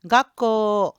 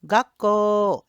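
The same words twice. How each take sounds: The two takes are said the same way.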